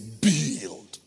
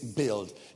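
First: It is said powerfully, in a Nigerian accent. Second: It is said weakly, in a Ghanaian accent. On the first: The speaker calls it right. "The Nigerian will say build. It builds you. You can feel the power" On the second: The speaker calls it wrong. "When a Ghanaian says build, it doesn't sound powerful"

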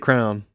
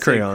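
First: The Y sound in the middle is dropped. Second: The Y sound in the middle is included. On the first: The speaker calls it wrong. "Some people say crown" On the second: The speaker calls it right. "You got to have the Y in there"

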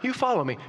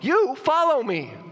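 First: It is said mildly, without force. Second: It is said forcefully, as an exclamation.

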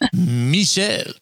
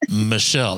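First: The name is said with a French accent. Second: The name is said the plain English way. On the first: The speaker calls it right. "this little French accent with your name" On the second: The speaker calls it wrong. "it's not Michelle"

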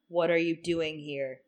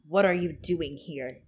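First: The line is said flat and emotionless. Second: The line is said with some expression.

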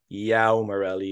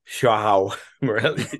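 First: The name begins with a 'y' sound. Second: The name begins with a 'zh' sound. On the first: The speaker calls it wrong. "so it's not Yao Morelli" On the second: The speaker calls it right. "they kind of pronounce the J"

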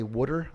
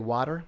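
First: It is said in a Maryland accent. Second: It is said in a standard accent.

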